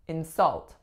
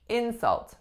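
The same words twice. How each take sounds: First: The stress is on the second syllable. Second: The stress is on the first syllable. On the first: It is used as a verb. "the strongest syllable is the second" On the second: It is used as a noun. "we would do the opposite"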